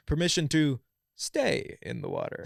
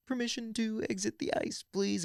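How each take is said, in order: First: Imitating an unbothered guy's polite request; raised-pitch, easygoing mock request; super chill. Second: High-pitched, controlled formal request; imitating a freezing trainee asking permission; strained composure. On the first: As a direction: ask it like you're enjoying the ice. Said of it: "just super chill". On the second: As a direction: struggle to ask politely without freaking out. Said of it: "verbally say it instead of freaking out".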